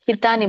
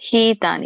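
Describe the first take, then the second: First: The first vowel is said short. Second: The first vowel is drawn out long. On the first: The speaker calls it wrong. "ಹಿತ್ ಹಿತಾನಿ ಬರಲ್ಲ ಮಾತಾಜಿ" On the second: The speaker calls it right. "ಅಲ್ಲಿ ದೀರ್ಘ ಇದೆಯಲ್ಲ, so ಹಾಗಾಗಿ ಎಳಿಬೇಕು"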